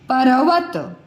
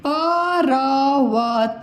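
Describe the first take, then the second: First: Said in the usual way. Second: परवत read slowly with a full vowel after प, as पर-वत; teacher drawing out परवत syllable by syllable to show the mistake; wrongly split reading. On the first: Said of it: "तो इसको क्या पढ़ेंगे". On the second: Shown as a demonstration. Teacher गलत उच्चारण दिखाती है: परवत को धीरे-धीरे पर-वत कहकर. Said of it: "मान लो आपने लिख दिया".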